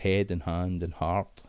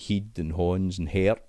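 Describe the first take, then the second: First: The words are said in standard English pronunciation. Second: The words are said in Scots pronunciation. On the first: "It's head and hand and heart" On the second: "They're no saying heed and horns and heart"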